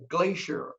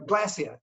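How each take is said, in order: First: "Glacier" said GLAY-sher; therapist's careful "Glacier", as GLAY-sher; corrected pronunciation. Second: "glacier" said GLASS-ee-uh; Aussie pronunciation. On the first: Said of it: "Oh, you said glacier". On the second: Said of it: "not glacier". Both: Retold or imitated.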